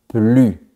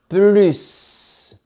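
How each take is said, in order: First: The final S is silent. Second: The final S is pronounced. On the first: It means no longer. "à la forme négative, on dit plus" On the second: It means more. "quand on augmente, on dit plus"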